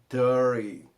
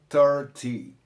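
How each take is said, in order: First: The middle T is dropped. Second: The middle T is clearly pronounced. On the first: "eu pronunciei thirty, né, sem, uh, sem falar o T" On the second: "pode ser pronunciado thirty"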